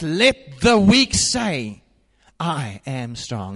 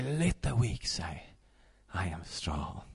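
First: Slow ringing call of Scripture; preached proclamation. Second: Soft, low and hushed; hushed recitation; quiet declaration. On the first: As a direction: lift the word weak then settle down. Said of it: "He says". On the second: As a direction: murmur it like a private prayer. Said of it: "and say". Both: Shown as a demonstration.

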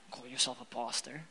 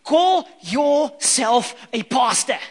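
First: Much lower and softer, grumbled aside; muttered mock grumble at the pastor; sulky mutter. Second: Slow, louder, outraged jab; offended disciple snapping back at Jesus; indignant retort. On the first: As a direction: mutter it under your breath in mock sulk. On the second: Retold or imitated. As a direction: drag it out, mock offended. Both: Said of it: "I'm like".

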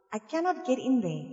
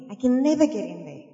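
First: Cannot pressed hard; stress on cannot. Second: Never hit louder; never carries the line; stress on never. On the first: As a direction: lean on the word cannot. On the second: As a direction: punch the word never. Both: Shown as a demonstration.

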